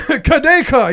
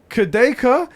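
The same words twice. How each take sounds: First: The name is said excitedly, exclaimed. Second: The name is said hesitantly, unsure.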